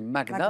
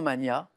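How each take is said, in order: First: A hard g is heard before the n. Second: The g and n merge into one 'ny' sound. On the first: This follows the Latin origin of the word. The speaker calls it right. "on doit le prononcer comme pour Magnus" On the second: This is the form people commonly use. The speaker calls it wrong. "on entend souvent mania"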